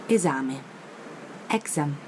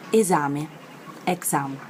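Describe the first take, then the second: No difference in how they are said.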